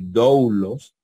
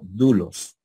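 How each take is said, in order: First: The first vowel glides as a diphthong. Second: The first vowel is a single u sound. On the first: The speaker calls it wrong. "no van a decir doulos" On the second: The speaker calls it right. "sino dulos"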